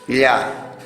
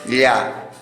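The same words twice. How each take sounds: First: The sound is pronounced the Quechua way. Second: The same.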